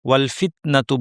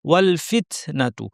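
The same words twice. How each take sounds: First: The t is released with no puff of air. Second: The t is released with a clear puff of air. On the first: The speaker calls it wrong. "বাতাস বের করেন না।" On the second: The speaker calls it right. "সঠিকটা হবে"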